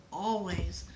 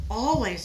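First: Said in the usual way. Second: ALWAYS said louder, emphatic; exclaimed. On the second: Acted. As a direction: stress the repeated always. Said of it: "exclaimed their father".

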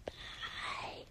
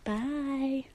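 First: Eerie breathy whisper; creepy whisper. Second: A voiced quiet goodbye, still eerie; softer creepy bye. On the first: Pretend. Whispering goodbye to fans, eerily. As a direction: let it hang like a ghost. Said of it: "that was kinda creepy". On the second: Saying goodbye again to fans, gently. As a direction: say it again, trying to sound less creepy. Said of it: "That was creepier".

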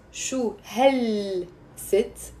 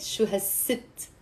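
First: "hel" said in full with a drawn-out L, very slow; slow teacher's breakdown of "shu hel sit"; word by word. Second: "has sit" with the L of "hel" turned into an S; slow, soft "Shu has sit", the article merged; run-together pronunciation. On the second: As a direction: link "Shu has sit" softly, with a long S into "sit". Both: Shown as a demonstration. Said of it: "but you're pronouncing it".

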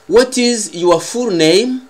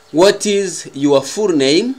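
Both takes have the same delivery.

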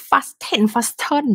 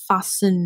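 First: "fasten" as "fas-ten", T pronounced; wrong, sounded T. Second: "fasten" said as "fas-sun", no T; silent T. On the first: Teacher showing the mistake to avoid, "fasten" with a spoken T. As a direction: hit a clear T inside "fasten". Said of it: "ว่า fasten fasten บ่ได้". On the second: Teacher giving the correct answer, "fasten" with silent T. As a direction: let the T vanish from "fasten". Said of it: "ตัว T หายไปเลย". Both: Shown as a demonstration.

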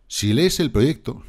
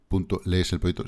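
First: Mock quote. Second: Said in the usual way. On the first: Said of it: "Y dice, "Sí". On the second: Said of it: "pues que pone".

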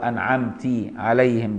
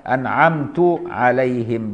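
First: أنعمت said 'anʕamti'. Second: أنعمت said 'anʕamtu', slow. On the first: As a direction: end أنعمت with i. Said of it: "بكسرها". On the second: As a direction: end أنعمت with u. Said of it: "بضم التاء". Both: Shown as a demonstration.

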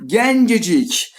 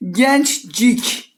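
First: Gencecik very slowly, each syllable with the added e; slow demo of the correct Gencecik; right form Gencecik. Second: Gençcik with the two c sounds jammed together, rising; Gençcik said like a question, no vowel added; wrong form Gençcik. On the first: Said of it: "hemen ünlü türetelim". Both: Shown as a demonstration.

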